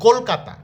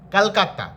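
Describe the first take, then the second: First: The word is said with Bengali pronunciation. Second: The word is said with Hindi pronunciation. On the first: "আমরা বাংলাতে বলি" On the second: "হিন্দিতে যেমন বলে"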